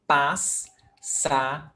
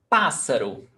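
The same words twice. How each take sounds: First: "Pás-sa-ro" slow, with gaps between pás, sa and ro; syllable by syllable. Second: Said in the usual way. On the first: Shown as a demonstration. Teacher showing how to separate double S, "Pás-sa-ro" syllable by syllable. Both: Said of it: "you must get them apart".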